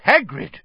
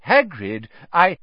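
First: Raised, higher voice to cut someone off; loud, commanding interruption. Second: Mild try at cutting in; restrained, unfinished interjection; attempted interruption. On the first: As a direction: call the name firmly to stop a rant. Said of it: "said Dumbledore loudly". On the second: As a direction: try to get a word in, then break off. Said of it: "Dumbledore tried to say something". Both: A narrator's reading.

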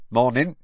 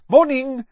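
First: A hint of a gruff campsite owner; lightly voiced Muggle. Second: High, loud cheerful hello; bright greeting. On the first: Campsite owner answering Mister Weasley, a touch of gruff. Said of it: "said the Muggle". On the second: Mister Weasley greeting the Muggle campsite owner, bright and high. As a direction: greet him with beaming brightness. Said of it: "said Mister Weasley brightly". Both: A narrator's reading.

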